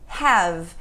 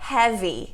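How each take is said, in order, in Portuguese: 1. A palavra termina na consoante, sem vogal. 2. Uma vogal extra é acrescentada depois da consoante final. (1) "Nós falamos have" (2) "Nós não falamos heavy"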